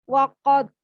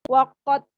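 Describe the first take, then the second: Both takes have the same delivery.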